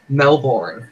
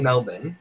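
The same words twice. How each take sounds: First: It is said with an American pronunciation. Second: It is said with an Australian pronunciation. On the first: "Americans say Melbourne" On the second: "we say Melbourne"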